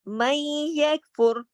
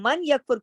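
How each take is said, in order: First: The n merges into the following y sound. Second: The n is clearly pronounced before the y. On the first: The speaker calls it right. "इसको मई यकफुर क्यों पढ़ा? इदगाम किया है हमने यहाँ पर।" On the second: The speaker calls it wrong. "क्योंकि वो गलत है।"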